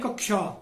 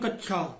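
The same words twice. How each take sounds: First: The middle consonant is a 'ksh' cluster. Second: The middle consonant is a 'chh' sound. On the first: The speaker calls it right. "शुद्ध उच्चारण है कक्षा" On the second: The speaker calls it wrong. "हम कहते हैं कक्षा"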